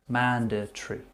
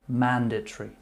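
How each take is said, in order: The two takes are said the same way.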